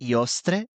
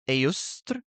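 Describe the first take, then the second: First: The name is said in an Italian way. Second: The name is said in a Germanic way. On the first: "If I were to pronounce it with my Italian" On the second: "I'm gonna butcher this pronunciation"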